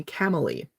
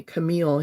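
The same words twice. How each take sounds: First: Camille said as KAM-uh-lee, stress on first syllable; Indian friend's pronunciation. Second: Said in the usual way. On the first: Retold or imitated. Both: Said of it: "he called me Camille".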